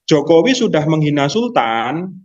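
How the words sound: It is said as a question.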